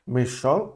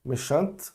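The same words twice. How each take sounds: First: Méchant with nasal ending, no T; méchant, T silent; masculine form. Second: Méchante with a very soft final T; Méchante, barely releasing the T. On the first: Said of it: "Aí eu não vou falar o E, mas eu vou pronunciar o T". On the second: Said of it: "com esse T bem suave". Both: Shown as a demonstration.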